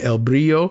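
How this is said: The name is said with Spanish pronunciation. "pronounced the Spanish way"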